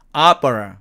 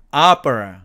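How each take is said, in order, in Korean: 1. 영어 모음 소리로 발음됩니다. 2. 영어 모음 소리로 발음됩니다.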